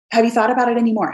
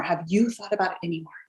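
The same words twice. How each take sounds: First: Quick, upbeat ask; brisk follow-up. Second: Much softer, gentle repeat; soft follow-up. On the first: Checking back in with a prospect, quick and casual. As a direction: rattle it off lightly. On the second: Checking back in with a prospect, gently softer. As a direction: ease off and ask it quietly. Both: Shown as a demonstration.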